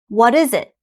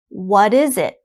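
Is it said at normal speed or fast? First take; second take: fast; normal. First: It is said fast, like one word. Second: It is said at a normal, careful speed.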